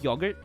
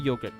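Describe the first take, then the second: First: It is said with the British pronunciation. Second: It is said with the American pronunciation. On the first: "I think U K is like yogurt" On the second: "I would say yogurt though"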